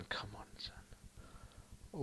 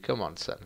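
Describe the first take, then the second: First: Soft unvoiced plea; whisper. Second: Said in the usual way. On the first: Real, not acted. Gamer whispering to his striker. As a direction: whisper it under your breath.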